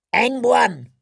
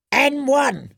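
First: High crone bid; old crone bidding. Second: High, crackly crone bid; old crone bidding. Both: A narrator's reading. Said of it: "said the crone in the violet toga".

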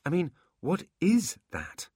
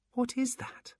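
First: "is" pressed, slow and higher; stress on is. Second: High, wondering creature voice; curious demon voice. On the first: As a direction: lean on "is" in "what is that?". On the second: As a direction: ask it in wonder. Demon number one marvels. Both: Acted.

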